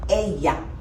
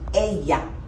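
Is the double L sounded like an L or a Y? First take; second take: Y; Y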